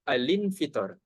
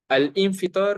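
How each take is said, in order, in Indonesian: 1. Bunyi l menyambung lancar ke infitar tanpa jeda. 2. Ada jeda glotal yang memisahkan al dari infitar. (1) "Yang betulnya al infitar"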